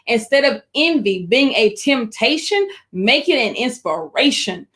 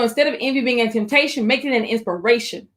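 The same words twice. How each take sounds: First: It is spoken at a noticeably slower pace. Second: It is spoken at a normal, quicker pace.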